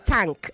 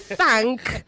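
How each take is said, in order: First: The word begins with a hard 't' sound. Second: The word begins with a soft 'th' sound. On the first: "So it's actually thank versus tank" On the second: "So it's actually thank versus tank"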